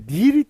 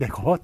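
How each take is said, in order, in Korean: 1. 모음은 높은 'i' 소리예요. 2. 모음은 중간 높이의 'e' 소리예요. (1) "니 비슷하게 이렇게 발음을 하죠. 근데 요 발음은 원래 틀린 발음이에요" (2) "내것 내것 예, 똑같이 이렇게 발음하는 게"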